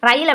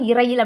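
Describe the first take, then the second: First: The word starts directly with the R sound. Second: The word starts with an added i vowel. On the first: The speaker calls it right. "ரயில் அப்படின்னு தான் வாசிச்சோம்" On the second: The speaker calls it wrong. "இரயில் அப்படின்னு வாசிக்கல"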